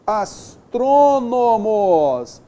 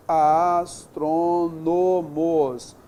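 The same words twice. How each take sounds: First: "astrônomos" very slow and loud, long trô; sílabas alongadas. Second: "astrônomos" very slow, even syllables, unforced; sílabas separadas. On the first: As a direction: belt out "astrônomos" syllable by syllable. Teacher sounds out word, first take. ("astrônomos" silabado, forte e bem lento) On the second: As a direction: spell out "astrônomos" beat by beat, level voice. Teacher repeats word by syllables. ("astrônomos" silabado, lento e uniforme) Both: Shown as a demonstration.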